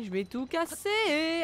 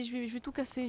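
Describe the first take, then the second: First: Slow, high, drawn-out threat; mock threat. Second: Said in the usual way. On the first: Real, not acted. Player vowing to smash the enemies, slow mock-menacing. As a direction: stretch it out like a playful threat. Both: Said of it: "je suis énervée".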